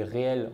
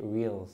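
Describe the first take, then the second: First: Réels said the French way, with a French r and two vowels, "ré-el"; réels in plain French, after the English take; French pronunciation. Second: Reels said with an English accent, "wils"; English accent on Reels, a light show-off. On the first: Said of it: "les réels en français". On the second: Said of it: "Merci pour mon accent anglais". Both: Shown as a demonstration.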